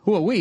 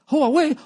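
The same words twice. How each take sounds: First: It is said in his normal accent. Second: It is said in a put-on Chinese accent.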